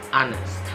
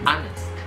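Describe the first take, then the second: The two takes are said the same way.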